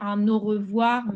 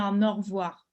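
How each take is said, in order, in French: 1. Le E du milieu de revoir est prononcé. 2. Le E du milieu de revoir est supprimé. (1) "il pourrait dire un au revoir" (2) "il parle plus vite, donc il dit un au revoir. C'est comme si le E au milieu, hem, on l'entendait pas"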